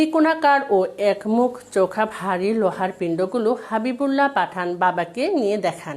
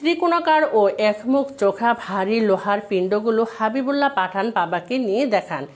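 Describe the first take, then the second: Both takes have the same delivery.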